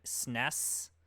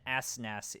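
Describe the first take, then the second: First: It is spoken as one single word. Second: Each letter is spoken separately. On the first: The speaker calls it right. "sounding out phonetically is okay" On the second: The speaker calls it wrong. "calling it an S N E S is incorrect"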